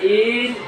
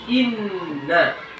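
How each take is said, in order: First: The first vowel is drawn out long. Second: The first vowel is short. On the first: The speaker calls it wrong. "bukan in, nah, ini nggak boleh" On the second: The speaker calls it right. "Yang benar inna"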